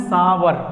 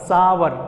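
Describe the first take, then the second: First: It starts with 's' and has two syllables. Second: It starts with 's' and has two syllables.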